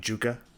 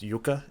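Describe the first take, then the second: First: The name begins with a hard J sound. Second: The name begins with a soft Y sound. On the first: "I'm going to pronounce it the way it is spelt" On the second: "if it has a soft J like Tarya does"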